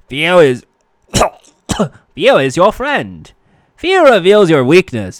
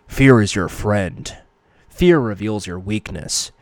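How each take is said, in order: First: It is a goofy, cartoonish put-on voice. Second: It is a deep, gravelly put-on voice. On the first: "that's so fucking Elmer Fudd" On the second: "I'll try and do a Batman voice"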